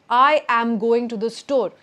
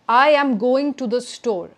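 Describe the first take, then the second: The two takes are said the same way.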